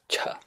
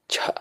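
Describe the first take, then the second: First: The ch sound has a puff of breath. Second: The same.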